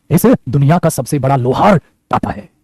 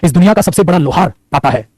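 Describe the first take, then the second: First: Lower, very slow and spaced out; slow emphatic repeat. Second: Said in the usual way. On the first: Shown as a demonstration. Teacher repeating a key line to students, slow and emphatic. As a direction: draw it out word by word, pitched down.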